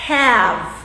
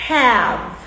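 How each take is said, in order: Both takes have the same delivery.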